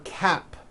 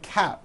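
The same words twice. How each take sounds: First: The final P sound is clearly released. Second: The final P sound is dropped. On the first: The speaker calls it right. "For cap" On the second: The speaker calls it wrong. "you may be saying cap"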